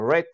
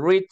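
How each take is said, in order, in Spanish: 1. Se pronuncia como la forma del pasado. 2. Se pronuncia como la forma del presente. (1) "para leer el participio o el pasado digo read" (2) "En presente yo digo read"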